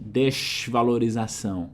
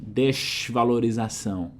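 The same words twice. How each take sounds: First: It is said in a Rio de Janeiro accent. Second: It is said in a Rio de Janeiro accent.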